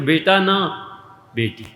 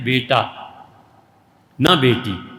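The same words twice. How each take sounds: First: There is a pause right after the second word. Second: There is a pause right after the first word. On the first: Not a son, a daughter. "और बेटी हो जाती है तो" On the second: A son, not a daughter. "उनका जब बेटा हो जाता है तो हज़रत कहते हैं"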